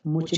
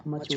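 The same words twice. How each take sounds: First: मुच with an oo vowel; wrong U sound. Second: मच with an uh vowel; short U sound. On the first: Teacher rejecting a misreading, मुच with oo. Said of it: "मुच नहीं होता". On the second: Teacher correcting the reading, मच with short uh. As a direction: say मच as in English much. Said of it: "मच होता है". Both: Shown as a demonstration.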